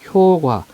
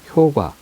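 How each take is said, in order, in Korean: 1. 두 번째 음절은 경음으로 시작해요. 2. 첫 모음은 길고, 두 번째 자음은 평음이에요. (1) "효과라고 발음하면 안 돼요" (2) "효 길게 발음하기 때문에 뒤에 된소리로 발음 안 합니다"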